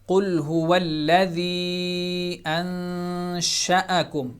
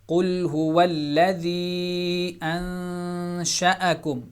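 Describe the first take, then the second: No difference in how they are said.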